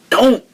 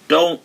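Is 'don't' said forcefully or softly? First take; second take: forcefully; softly. First: The word is said forcefully with strong emphasis. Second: The word is said softly and hesitantly. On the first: It is a firm command. "like with emphasis" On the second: It is only a mild suggestion. "He didn't just say"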